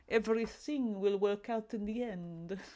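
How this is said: It is said in a Dracula-like Transylvanian accent.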